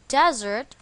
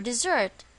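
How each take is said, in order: First: "desert" with the stress on its first syllable, DEZ-ert. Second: "dessert" with the stress on its second syllable, di-ZERT. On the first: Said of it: "The stress is on the first syllable". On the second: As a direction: lean on the end of "dessert", di-ZERT. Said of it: "the stress is on the second syllable". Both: Shown as a demonstration.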